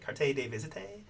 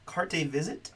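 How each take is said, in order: First: The name is said with a French flair. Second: The name is said plainly, without French flair. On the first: The speaker calls it right. "A little flair to it, probably" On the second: The speaker calls it wrong. "I feel like I'm not saying that right"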